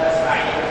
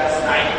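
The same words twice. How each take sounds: Both takes have the same delivery.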